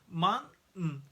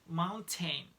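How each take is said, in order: First: The t is a glottal stop. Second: The t is a fully released t sound. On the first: The speaker calls it right. "We say in English mountain" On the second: The speaker calls it wrong. "You probably say mountain. No way"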